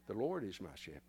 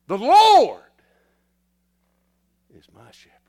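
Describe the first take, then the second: First: It is read in a flat, even monotone. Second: It is read with lively, varied expression. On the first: The speaker calls it wrong. "sometimes we read that monotone" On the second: The speaker calls it right.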